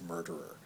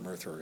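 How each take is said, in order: First: The middle consonant is a hard d sound. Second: The middle consonant is a soft th sound. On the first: The speaker calls it right. "it's pronounced murderer" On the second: The speaker calls it wrong. "it's not murtherer"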